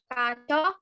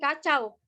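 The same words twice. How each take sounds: First: The word ends in a plain o sound. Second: The word ends in an au diphthong. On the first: The speaker calls it wrong. "diftong au diucapkan menjadi uh, oh ... kacau itu salah" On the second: The speaker calls it right. "sedangkan kacau itu benar"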